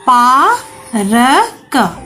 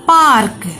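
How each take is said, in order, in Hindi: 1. ध्वनियाँ अलग-अलग बोली जाती हैं, बीच में रुककर। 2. ध्वनियाँ मिल जाती हैं, r बहुत छोटा होता है।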